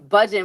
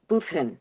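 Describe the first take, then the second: First: The middle consonant is a soft j sound. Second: The middle consonant is a harsh throat sound. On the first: "when you say it without the accent" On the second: "like with a, you know, the"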